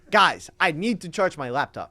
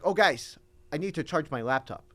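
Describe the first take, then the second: First: Louder, more emphatic professor announcement; lightly voiced teacher calling to the class; Spanish professor imitation. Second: Lightly voiced professor; offhand retelling of a teacher's announcement; Spanish professor imitation. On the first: Student re-demonstrating his professor to a doubting friend, emphatic imitation. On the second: Student quoting his professor to a friend, light imitation. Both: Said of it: "That's just how he said it".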